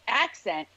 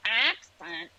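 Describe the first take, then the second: First: Said in the usual way. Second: Accent said in a Delco accent. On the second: Shown as a demonstration. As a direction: exaggerate the local Delco vowel in accent. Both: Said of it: "learn the Delaware County".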